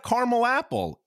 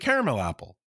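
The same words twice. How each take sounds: First: Caramel is said with two syllables. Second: Caramel is said with three syllables. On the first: The speaker calls it wrong. "It's not a caramel apple" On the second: The speaker calls it right. "It's a caramel apple"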